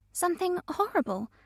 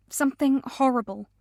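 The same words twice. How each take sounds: First: Higher, softer, disbelieving echo; incredulous echo. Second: Said in the usual way. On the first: A narrator's reading. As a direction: repeat her words back in disbelief. Friend echoes in disbelief.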